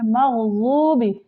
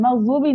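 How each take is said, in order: First: मग़ज़ूबि with a thick ض from the tongue sides; heavy dhad. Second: मग़ज़ूबी with a plain Hindi z sound; wrong pronunciation. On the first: Teacher showing the correct dhad letter, thick heavy ज़. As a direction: make the ज़ of मग़ज़ूबि thick, tongue on the side teeth. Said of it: "गौद का मखरज है". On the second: Teacher showing the mistaken letter, light plain ज़. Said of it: "मग़ज़ूबी नहीं होता". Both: Shown as a demonstration.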